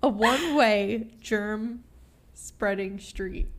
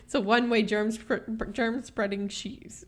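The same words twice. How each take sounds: First: "one-way germ spreading street" said slowly, piece by piece; slow, deliberate "germ ... spreading street", each word separated; careful retry. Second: "germ spreading street" fumbled into "germ spr-, germ spreading she's"; stumbling over "germ spreading", ending on a wrong "she's"; botched tongue twister. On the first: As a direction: pause after "germ", then land "spreading street" cleanly. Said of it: "That's hard to say". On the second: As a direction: trip on "spr-", restart, and slip to "she's" for "street". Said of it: "I ruined that". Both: Real, not acted.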